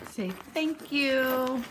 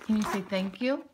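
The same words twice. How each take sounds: First: "thank you" drawn out slowly; slow modeling for a child. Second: Said in the usual way. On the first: Shown as a demonstration.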